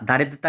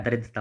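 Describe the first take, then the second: First: "दारिद्रता" with long first aa; wrong form दारिद्रता. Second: "दरिद्रता" with short first a; correct form दरिद्रता. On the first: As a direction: stretch the daa in दारिद्रता. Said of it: "दारिद्रता नहीं होता यार". ("दारिद्रता" में दा लंबा, गलत रूप) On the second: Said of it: "दरिद्रता होता है". ("दरिद्रता" में द छोटा) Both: Shown as a demonstration.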